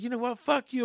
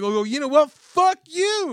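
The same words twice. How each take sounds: First: High-pitched retold cursing; mock old lady. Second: Much higher, louder retold cursing; mock outraged comeback. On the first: Old lady swearing at the shopper, high mock voice. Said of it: "Well, she's like". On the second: Shopper swearing back at old lady, loud mock outrage. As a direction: fire back loudly, voice shooting way up.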